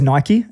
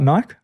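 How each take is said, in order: First: The word has two syllables ending in 'ee'. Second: The word is one syllable rhyming with 'bike'. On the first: The speaker calls it right. "it was always Nike" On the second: The speaker calls it wrong. "and not Nike"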